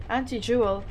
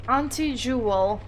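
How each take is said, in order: First: "Auntie" said as ANT-ee; short front vowel at the start of "Auntie". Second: "Auntie" with a broad AHN-tee. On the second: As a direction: say "Auntie" starting like "on". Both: Shown as a demonstration. Trying two pronunciations of Auntie.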